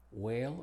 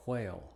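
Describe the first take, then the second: First: "whale" starting on a simple W, as "wale"; "whale" with the H left silent; W without H. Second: "whale" starting "hw", as "hwale"; "whale" with an audible H before the W; H sounded before W. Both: Shown as a demonstration. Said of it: "es opcional en palabras".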